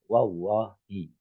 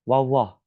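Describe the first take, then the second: First: The word ends with a final 'i' vowel. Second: The word ends without a final vowel. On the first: It counts as a real oath. The speaker calls it right. "harus kasrohnya disebut wallahi" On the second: It is only a saying, not a binding oath. The speaker calls it wrong. "wallah itu secara hukum bukan sumpah"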